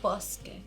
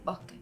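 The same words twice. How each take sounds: First: The s is pronounced as a clear s. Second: The s is softened into a breath.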